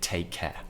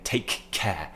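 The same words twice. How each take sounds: First: The two k sounds merge into one. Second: Both k sounds are pronounced separately. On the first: The speaker calls it right. "Just say take care" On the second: The speaker calls it wrong. "Don't say take care, because it's too much, it's too stressful"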